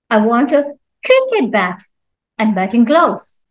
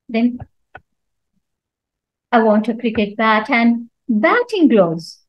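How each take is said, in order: First: The stress falls on the word cricket. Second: The stress falls on the word batting. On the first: It must be a cricket bat, not another bat. "Cricket means not anything else" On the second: It must be batting gloves, not other gloves. "So when I stress on batting"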